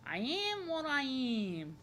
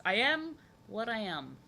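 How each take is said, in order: First: Very slow, playfully stretched vowels; drawn-out. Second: Said in the usual way. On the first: Pretend. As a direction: stretch each word out in playful self-acceptance. Playful drawn-out repeat of the line.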